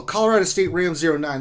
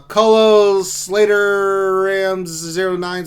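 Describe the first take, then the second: First: Colorado State Rams said clearly, realising what it means; plain corrected reading of Colorado State Rams; corrected name. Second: Colo Slater Rams read slowly as Colo Slater, puzzling over a mashed-up username; slow misreading of Colo Slater Rams zero nine; misread name. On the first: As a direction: read Colorado State Rams zero nine properly. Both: Real, not acted. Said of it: "That's what that means".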